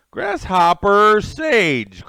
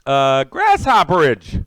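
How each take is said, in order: First: "Grasshopper Sage" very slow and careful, each part spelled out; carefully fix it to "Grasshopper Sage" with a clear gap before "Sage"; corrected name. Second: "Grasshopperage" slurred together as one word, slowly; mangled name. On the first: Streamer correcting a viewer's name, slow and careful. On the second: Streamer greeting a viewer, garbling the name. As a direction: stumble into "Grasshopperage" as a single run-together name. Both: Real, not acted. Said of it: "chewed that name up pretty good".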